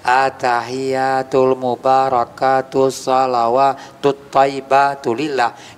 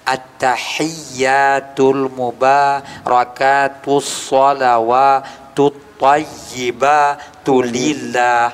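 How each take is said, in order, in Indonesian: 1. Beberapa huruf diucapkan dengan longgar dan tidak jelas. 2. Setiap huruf diucapkan dengan hati-hati dan jelas. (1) "dia begini bacanya" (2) "bacaan yang benar"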